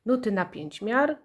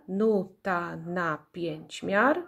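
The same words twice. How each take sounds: First: Said in the usual way. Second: "nuta na pięć miar" slow, in five beats; syllable by syllable. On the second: Shown as a demonstration. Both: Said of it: "ilość sylab w nazwie pokrywa się".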